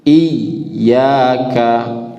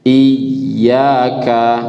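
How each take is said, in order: Both takes have the same delivery.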